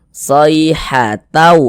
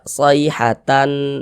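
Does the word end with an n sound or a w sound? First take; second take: w sound; n sound. First: The final n sound merges into a w sound. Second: The word ends with a clear n sound. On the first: The speaker calls it right. "Ini kita baca sayhatau" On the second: The speaker calls it wrong. "jangan dibaca sayhatan"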